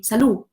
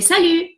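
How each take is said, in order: First: Salut said with a Spanish U. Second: Salut with a proper French U. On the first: Teacher mimicking Spanish beginners in France, salut with Spanish U. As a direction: make salut's U a plain Spanish one. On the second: Teacher giving the correct French word, salut with French U. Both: Shown as a demonstration. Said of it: "pronunciamos U".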